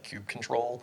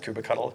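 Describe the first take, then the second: First: The second part is said as the word control. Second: The second part is not said as control. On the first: This is how other people say it. "people pronounce that kube control" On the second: This is the speaker's own playful choice. "I pronounce it kubectl because it's adorable"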